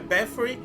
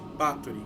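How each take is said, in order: First: The name is pronounced the English way. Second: The name is pronounced the Brazilian Portuguese way. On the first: "Em inglês geralmente é" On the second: "nós aqui no Brasil chamamos essa banda de"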